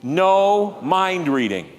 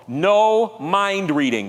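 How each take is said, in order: First: "No mind reading" slow, leading the room; slow emphatic. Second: Slow, stressed "No mind reading"; slow emphatic. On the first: Preacher repeats the slogan with the congregation, slow. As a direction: say it with them slowly. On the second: Preacher teaching a slogan for the congregation, slow and firm. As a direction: lay each word down slowly. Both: Shown as a demonstration. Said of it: "Can you say that with me".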